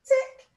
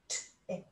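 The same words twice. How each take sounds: First: Said in the usual way. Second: "tick" segmented softly into t, i, k; sounded out. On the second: Shown as a demonstration. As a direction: separate each sound of "tick". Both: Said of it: "First part of the word tick".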